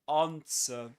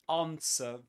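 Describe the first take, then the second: First: It is said in a British accent. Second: It is said in a British accent.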